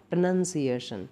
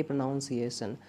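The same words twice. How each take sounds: First: प्रोनाउंसिएशन with "nun", not "noun"; correct pronunciation. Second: प्रोनाउंसिएशन with "naun", like pronounce; wrong pronunciation. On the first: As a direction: say प्रोनाउंसिएशन as pro-NUN-ciation. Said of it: "का सही प्रोनाउंसिएशन". (प्रोनाउंसिएशन को सही "नन" के साथ बोलें) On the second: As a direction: say प्रोनाउंसिएशन as pro-NOUN-ciation, the common mistake. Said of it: "ना कि". (प्रोनाउंसिएशन को गलत "नाउन" के साथ बोलें) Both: Shown as a demonstration.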